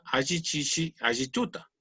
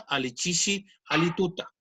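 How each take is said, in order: First: "Ayichishi, Ayituta" said with a Y sound, a-yi; softer teacher demo of "Ayichishi", Y sound; ayi pronunciation. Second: "alichishi, alituta" said with a clear L sound, a-li; careful teacher demo of "alituta", L sound; ali pronunciation. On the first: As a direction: say "Ayituta" with the Y sound of the other accent. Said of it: "que es el acento del". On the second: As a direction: say "alituta" with a plain L where others use Y. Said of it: "la pronunciación es". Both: Shown as a demonstration.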